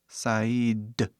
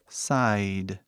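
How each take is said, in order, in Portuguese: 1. A palavra é dita com sons de vogais do inglês. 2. A palavra é dita com sons de vogais do inglês.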